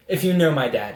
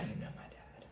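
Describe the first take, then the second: First: Said in the usual way. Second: Barely voiced, very soft aside; knowing mutter. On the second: Real, not acted. Storyteller hinting at dad's reputation, knowing mutter. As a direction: drop it almost to a whisper.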